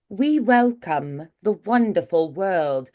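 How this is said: It has an English accent with rounded lips.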